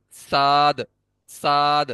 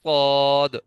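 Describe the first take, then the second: First: صاد said thin like سین, wrong way; a light سین sound in place of صاد; seen-like suad. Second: صاد full and heavy, tongue root raised; the correct thick صاد; proper suad. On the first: Teacher shows the wrong thin صاد. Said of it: "سین کو صاد پڑھتا ہوں تو کیسے پڑھوں گا". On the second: Teacher shows the right heavy صاد. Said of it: "لیکن صاد کو میں پڑھتا ہوں". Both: Shown as a demonstration.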